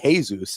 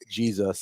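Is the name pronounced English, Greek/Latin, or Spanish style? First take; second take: Spanish; English. First: The name is pronounced in a Spanish style. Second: The name is pronounced in an English style. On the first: "back to Jesus in Spanish" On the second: "and then we got Jesus"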